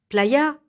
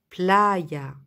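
First: The stress is not on the second-to-last syllable. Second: The stress is on the second-to-last syllable. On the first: The speaker calls it wrong. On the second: The speaker calls it right.

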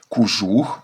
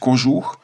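First: The first vowel sounds like 'u'. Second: The first vowel sounds like 'o'. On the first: "укання на місці етимологічного «о»" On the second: "замість"

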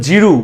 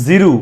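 No difference in how they are said.

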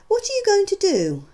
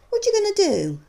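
First: Each word is pronounced separately and fully. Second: The words run together into reduced sounds. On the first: "you can see the words being spoken" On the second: "followed by how they might sound to the listener"

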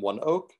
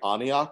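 First: The name begins with the word 'one'. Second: The name begins with an 'ah' sound. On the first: The speaker calls it right. "that was the pronunciation" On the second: The speaker calls it wrong. "I kept on saying Aniok rather than One Oak because I didn't understand that was the pronunciation"

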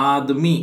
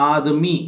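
The two takes are said the same way.

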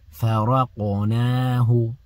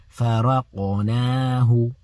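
Both takes have the same delivery.

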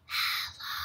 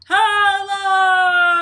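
First: It is said very quietly. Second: It is said very loudly.

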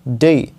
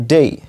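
No difference in how they are said.

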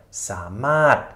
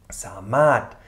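The two takes are said the same way.

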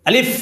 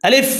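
No difference in how they are said.

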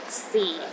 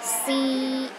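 First: The pitch is at its very lowest. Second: The pitch is high and stays level. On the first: "the lowest tone" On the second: "The first tone is high and steady"

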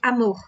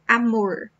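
First: The r is a throaty h-like Rio sound. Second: The r sounds like English r, speaker's region.

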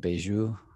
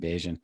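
First: The name is said with a French-style pronunciation. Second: The name is said with an English-style pronunciation. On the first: This is how people in French Canada say the name. "they say something like Bajou" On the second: This is how the family says the name. "Bajan is how I say it. My family says it"

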